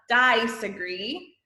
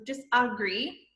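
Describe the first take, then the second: First: The first vowel is a long sound. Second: The first vowel is a short sound. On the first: The speaker calls it wrong. "it's not disagree" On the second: The speaker calls it right. "so that's a short sound"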